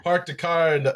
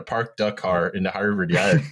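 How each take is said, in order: First: Higher, Boston attempt slipping into Minnesota; botched Boston accent turned Minnesotan; accidental Minnesota accent. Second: Hammed-up Boston accent, R's dropped; broad imitation of Boston Irish Riviera speech. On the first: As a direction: try Boston, land in Minnesota. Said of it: "I went Minnesota there". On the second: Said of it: "The Irish Riviera accent".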